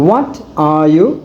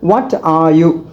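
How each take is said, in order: No difference in how they are said.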